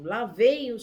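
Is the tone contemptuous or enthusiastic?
enthusiastic. It is said with a warm, enthusiastic tone. The person is admired for realizing a dream. "as mesmas palavras são ditas com entusiasmo"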